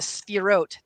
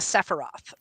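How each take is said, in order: First: It is said with the Hebrew pronunciation. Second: It is said with an anglicized pronunciation. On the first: This is the term from Kabbalah. The speaker calls it right. "in Hebrew it'd be the Sphirot" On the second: This is the name of a video game character. The speaker calls it wrong. "not the Sephiroth"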